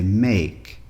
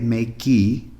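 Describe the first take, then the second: First: The word ends on the k sound. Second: The word ends with an added ee sound. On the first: The speaker calls it right. "we say make" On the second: The speaker calls it wrong. "we don't say makey"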